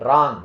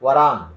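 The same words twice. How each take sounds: First: Wrong said rong, silent w; Wrong without the w; correct pronunciation. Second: Warang with the w sounded; warang, w spoken; wrong pronunciation. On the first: (Wrong ಅನ್ನು w ಇಲ್ಲದೆ ಹೇಳಿ) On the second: (warang ಅನ್ನು w ಸೇರಿಸಿ ತಪ್ಪಾಗಿ) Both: Shown as a demonstration. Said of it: "Don't say".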